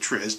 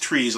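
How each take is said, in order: First: The vowel is short, like in 'fizz'. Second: The vowel is long, like in 'trees'. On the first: This is how Westerners read it. "I pronounce it triz because I'm a uh, Westerner" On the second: This is the original pronunciation. "it's actually pronounced trees"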